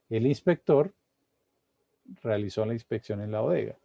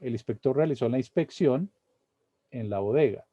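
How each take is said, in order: First: There is a pause near the start. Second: The sentence is read without any pause.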